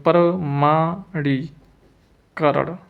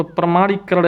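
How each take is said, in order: First: प्रमाणीकरण slowly as प्र-मा-णी-करण; drawn-out syllables in प्रमाणीकरण; slow dictation. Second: Said in the usual way. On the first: Shown as a demonstration. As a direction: dictate प्रमाणीकरण with gaps between parts. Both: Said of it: "प्रमाणीकरण ऐसे लिखेंगे".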